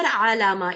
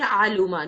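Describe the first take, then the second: First: The vowel after the L is a. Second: The vowel after the L is u. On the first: "these are wrong pronunciations" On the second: "these are wrong pronunciations"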